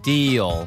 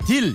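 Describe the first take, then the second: First: The final L sounds like an O vowel. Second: The final L is a clear L sound. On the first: The speaker calls it right. "D-E-O처럼 들려요" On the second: The speaker calls it wrong. "이렇게 안 들리고요"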